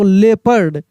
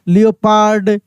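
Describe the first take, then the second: First: The first syllable is a short 'lep', no 'o'. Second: The first syllable is 'lee-o', followed by 'pard'. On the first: The speaker calls it right. "क्या पढ़ेंगे इसको" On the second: The speaker calls it wrong. "ऐसे हम लोग बिगाड़ कर बोल देते हैं"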